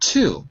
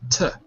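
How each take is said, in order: First: The vowel is full and unreduced. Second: The vowel is reduced to a weak schwa. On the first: The speaker calls it wrong. "not to" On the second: The speaker calls it right. "but to"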